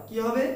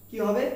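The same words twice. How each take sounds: The two takes are said the same way.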